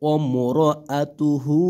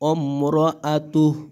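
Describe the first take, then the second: First: The word ends with a full 'hu' syllable. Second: The word ends on a bare 'h' sound. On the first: The reader continues without stopping. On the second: The reader stops at this word.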